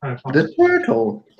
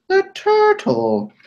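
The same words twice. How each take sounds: First: Slow, drawn-out reveal; slow and dramatic. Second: High, slow squeaky repeat; high squeak. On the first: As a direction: say it slowly, with weight. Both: Pretend. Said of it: "repeats the turtle twice".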